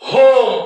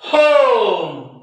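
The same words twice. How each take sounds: First: The o vowel is short. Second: The o vowel is long. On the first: The speaker calls it wrong. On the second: The speaker calls it right.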